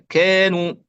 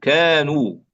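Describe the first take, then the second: First: The first vowel is thinned toward an e sound. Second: The first vowel is an open a sound. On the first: The speaker calls it wrong. "كثير من الناس يقرأ هكذا" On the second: The speaker calls it right. "كا ليس كي"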